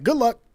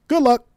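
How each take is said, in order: First: Mock callous advice. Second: High, loud sarcastic brush-off; loud mock farewell; mocking dismissal. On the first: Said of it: "you're like". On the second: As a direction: sneer it like a smug politician. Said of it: "what do the conservatives say".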